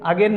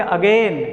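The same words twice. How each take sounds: First: "अगेन" short, as "a-gen"; wrong pronunciation. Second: "अगेन" with stretched gliding ending, "a-gaain"; corrected pronunciation. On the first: Teacher rejecting the habitual "अगेन", wrong short-vowel pronunciation. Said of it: "अगेन नहीं". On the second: Teacher answering what to say instead, corrected long "अगेन". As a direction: lengthen the second syllable of "अगेन". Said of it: "इसको क्या बोलेंगे". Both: Shown as a demonstration.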